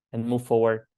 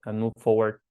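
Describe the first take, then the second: No difference in how they are said.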